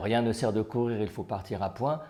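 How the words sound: It is said evenly in one go.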